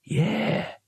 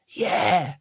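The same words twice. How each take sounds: First: High, wary drawn-out agreement; cautious. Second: Put-on slightly raised young wizard's agreement; youngest wizard. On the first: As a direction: agree carefully, unsure who just spoke. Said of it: "said the leader cautiously". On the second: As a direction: agree like the junior of the gang. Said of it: "said the youngest wizard". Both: A narrator's reading.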